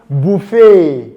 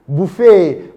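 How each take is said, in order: The two takes are said the same way.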